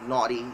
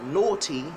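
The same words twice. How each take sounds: First: It is said in an American accent. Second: It is said in a British accent.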